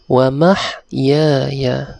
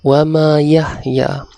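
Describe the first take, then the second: First: It is said as 'mahyaya' with 'h' closing 'mah'. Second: It is split as 'ma yahya'. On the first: The speaker calls it right. "bacaan yang betul ialah wa mahyaya" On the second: The speaker calls it wrong. "itu bacaan yang salah"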